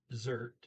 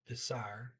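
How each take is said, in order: First: Said in the usual way. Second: "desire" said as deh-SAR, no T; Norwegian pronunciation. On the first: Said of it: "or dessert". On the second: Shown as a demonstration. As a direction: give "desire" an "ar" ending with silent T. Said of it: "the E R toward the end as R".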